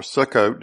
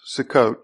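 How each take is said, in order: First: Sukkot with a fuller first syllable; alternative pronunciation. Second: Sukkot with a short, quick first syllable; variant pronunciation. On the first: Preacher offering the other way to pronounce it, Sukkot with a fuller first syllable. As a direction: give Sukkot more weight on its opening syllable. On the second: Preacher showing one way to pronounce the feast's name, Sukkot with a light first syllable. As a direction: say Sukkot leaning on the second syllable. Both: Shown as a demonstration. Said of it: "depending on how you pronounce it".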